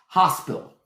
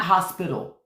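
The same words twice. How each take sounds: First: "Hospital" shortened to "hos-pill", no T; North Carolina pronunciation. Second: Said in the usual way. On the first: Shown as a demonstration. Showing listeners how it is down south, "Hospital" as "hos-pill". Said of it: "Y'all know how it is". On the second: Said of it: "It's not hospital".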